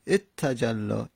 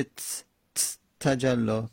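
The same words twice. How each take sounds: First: اتجلا opened with "et", leaning into a doubled t; اتجلا with an added initial e before the double t; helping vowel in front. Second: تجلا begun on a bare, vowelless t; vowelless first letter. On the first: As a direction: say "et-tajalla" for اتجلا, slowly. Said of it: "همزه میاریم". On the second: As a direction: hold a bare "ts" ت, pause, then say تجلا. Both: Shown as a demonstration.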